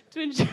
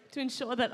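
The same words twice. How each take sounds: First: Much higher, fast words swallowed by a laugh; flustered host cracking up; giggling. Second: Said in the usual way. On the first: Real, not acted. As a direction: try to speak but dissolve into giggles. Breaks into giggles mid-sentence.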